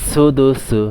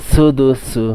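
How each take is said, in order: The two takes are said the same way.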